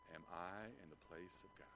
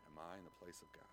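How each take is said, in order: First: Soft quoted question. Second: Soft repeated question. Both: Shown as a demonstration. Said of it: "Think about that for a second".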